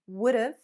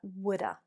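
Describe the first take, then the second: First: Have is shortened to a v sound. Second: Have is reduced to a weak schwa sound. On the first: The speaker calls it wrong. "or even would've" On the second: The speaker calls it right. "but woulda"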